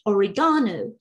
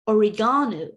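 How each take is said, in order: First: It is said in a British English accent. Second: It is said in a British English accent.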